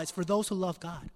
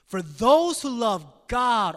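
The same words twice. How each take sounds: First: Said in the usual way. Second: "those" and "God" punched high and very loud; slow, booming emphasis on "those who love God"; stress on THOSE WHO LOVE GOD. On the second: Shown as a demonstration. Preacher showing Paul's point of emphasis, forcefully stressed. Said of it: "Do you see the point of emphasis?".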